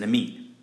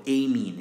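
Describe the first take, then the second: First: It is said with a non-British pronunciation. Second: It is said with a British pronunciation.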